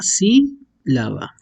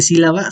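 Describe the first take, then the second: First: Sílaba very slow, the first syllable peaked and the rest falling away; stress on SÍ. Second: Said in the usual way. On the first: Shown as a demonstration. Teacher slowly models the first-syllable stress of sílaba. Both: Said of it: "su pico de pronunciación está al principio".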